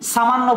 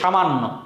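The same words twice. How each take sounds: First: The word begins with an 's' sound. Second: The word begins with an 'sh' sound. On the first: The speaker calls it wrong. "সামান্য বলি না" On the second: The speaker calls it right. "উচ্চারণ করতে তালব্য স্বর মতো"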